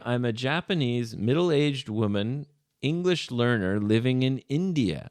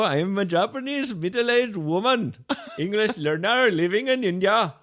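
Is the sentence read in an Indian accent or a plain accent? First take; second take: plain; Indian. First: It is read in the speaker's ordinary accent. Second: It is read in an imitated Indian accent.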